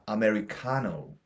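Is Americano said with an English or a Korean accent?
English. It is said with English sounds and stress. The speaker calls it right. "제대로 발음하게 돼요"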